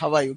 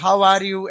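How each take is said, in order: First: The words run together into two quick syllables. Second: Each word is said fully and separately. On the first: The speaker calls it right. "तो ये इसका सही उच्चारण होता है" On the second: The speaker calls it wrong. "ऐसे तो हम बोलते हैं"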